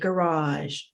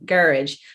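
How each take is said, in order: First: The stress is on the second syllable. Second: The stress is on the first syllable. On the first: This is the American way. "in the States, we would say garage" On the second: This is the British way. "stress on the first syllable"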